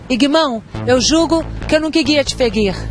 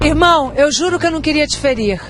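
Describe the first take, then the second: First: The r sounds are distorted and come out oddly. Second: The r sounds are pronounced clearly and normally.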